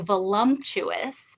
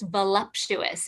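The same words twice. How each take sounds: First: The word is said with an added M sound. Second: The word is said without any M sound. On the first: The speaker calls it wrong. "everyone seems to put like an M in there" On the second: The speaker calls it right. "there's no M in there. So it's just voluptuous"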